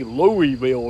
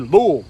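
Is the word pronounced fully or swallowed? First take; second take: fully; swallowed. First: The word is pronounced fully and clearly. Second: The word is swallowed and throaty. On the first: This is how outsiders say the name. The speaker calls it wrong. "we don't say Louisville around here" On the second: This is how locals say the name. The speaker calls it right. "We say Louisville"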